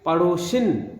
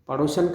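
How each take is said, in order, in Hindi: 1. आखिरी अक्षर में 'i' स्वर है। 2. आखिरी अक्षर में 'a' स्वर है।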